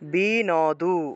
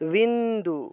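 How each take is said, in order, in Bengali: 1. প্রতিটি অক্ষর আলাদা করে উচ্চারিত হয়, n-এর পরে একটি স্বরধ্বনি আছে। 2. n সরাসরি d-এর সঙ্গে যুক্ত, মাঝে কোনো স্বরধ্বনি নেই। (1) "প্রথমটা হলো বিনাদু" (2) "হসন্ত থাকলে একসাথে উচ্চারণ হয়"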